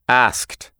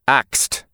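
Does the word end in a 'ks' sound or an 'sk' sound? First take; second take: sk; ks. First: The s sound comes before the k. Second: The k sound comes before the s. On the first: This is the standard English pronunciation. "instead of" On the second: "for pronunciation, I would say"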